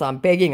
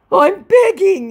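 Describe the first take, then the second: First: Said in the usual way. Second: Very high, loud put-on plea; squealed, melodramatic begging; mock begging. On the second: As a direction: beg hammily at the top of your range. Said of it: "I'm begging, he said".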